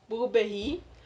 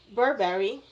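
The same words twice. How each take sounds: First: The name is said with a French pronunciation. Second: The name is said without a French pronunciation.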